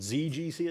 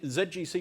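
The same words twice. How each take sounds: First: The letter Z is said as 'zee'. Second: The letter Z is said as 'zed'.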